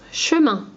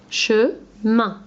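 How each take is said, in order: First: Said in the usual way. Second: "Chemin" in two beats, che, pause, min; split into syllables. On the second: Shown as a demonstration. Teacher showing pupils where "Chemin" divides, syllable by syllable. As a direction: say "Chemin" one syllable at a time. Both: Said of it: "On enlève la première syllabe".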